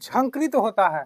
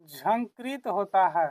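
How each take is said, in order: First: Said in the usual way. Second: Slower, softer repeat of the key term; slow teaching repeat. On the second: Shown as a demonstration. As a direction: spell out the answer slowly and softly. Answers own question, slowly for learners. (धीरे-धीरे, समझाते हुए दोहराना)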